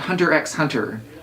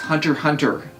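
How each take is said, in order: First: The middle X is pronounced aloud. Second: The middle X is left silent. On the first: The speaker calls it wrong. "not Hunter x Hunter" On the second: The speaker calls it right. "we are saying it correctly. It's Hunter x Hunter"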